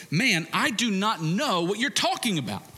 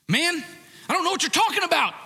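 First: Mild, half-acted irritated denial; Peter's denial. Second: Loud, much higher, fast denial shout; Peter's angry denial. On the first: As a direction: brush it off, lightly annoyed. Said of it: "But Peter said". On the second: Retold or imitated. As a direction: yell it, defensive and heated. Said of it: "you have Peter".

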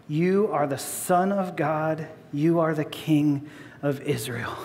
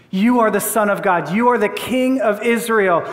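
First: Said in the usual way. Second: Amazed wonder. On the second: Acted. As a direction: voice Nathanael's amazement, lightly acted. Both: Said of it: "Do you hear the wonder in Nathanael?".

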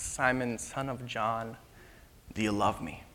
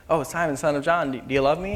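First: Soft, low, unhurried asking; quiet, sincere and weighty; solemn, tender question. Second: Breezy, offhand, run-on asking; louder, chatty, no weight; casual question. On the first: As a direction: ask gently, pausing before the question. Jesus solemnly questions Peter. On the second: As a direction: toss it off lightly. Imagined casual asking, just once. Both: Acted.

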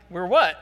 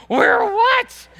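First: Said in the usual way. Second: Very high, loud bewildered question; baffled outburst. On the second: Retold or imitated. Wife to fans who keep chanting, loud baffled outburst. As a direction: cry it out high, totally lost. Wife's reply after chant keeps going.

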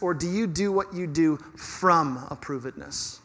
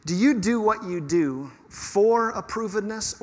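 First: "from approvedness" with from pressed, falling close; settled falling contrast on from; stress on FROM. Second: Slow, leaning on for in "for approvedness"; deliberate slow question hitting for; stress on FOR. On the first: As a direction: answer it by leaning on from in "from approvedness". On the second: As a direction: say "for approvedness" with for weighted and drawn out. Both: Shown as a demonstration. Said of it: "Here's my question for you".

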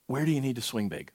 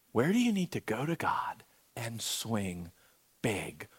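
First: Said in the usual way. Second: Softly whispered question, hushed and intimate; hushed prayerful whisper. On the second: Shown as a demonstration. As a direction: breathe it to the room so it stays quiet. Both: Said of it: "It's gonna be quiet".

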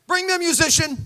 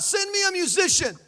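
First: Higher and louder, snapping a command; a quick, loud order; commanding call. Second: Much higher, called-out demand; screaming out. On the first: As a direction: call for the band with a finger snap. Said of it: "snapped his fingers like". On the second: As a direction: cry out for the musician. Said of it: "he screams out". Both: Retold or imitated.

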